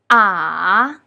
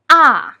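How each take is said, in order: First: It is said with the third tone. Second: It is said with the fourth tone. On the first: "With the third tone" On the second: "With the fourth tone"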